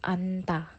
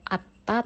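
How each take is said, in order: First: Only an n is sounded before ta. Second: Only a t is sounded before ta. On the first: The speaker calls it right. "tapi anta" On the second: The speaker calls it wrong. "atau atta"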